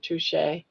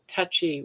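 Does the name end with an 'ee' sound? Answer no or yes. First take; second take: no; yes. First: The name does not end with an 'ee' sound. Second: The name ends with an 'ee' sound. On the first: The speaker calls it right. "instead of touche" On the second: The speaker calls it wrong. "like touchy with a Y"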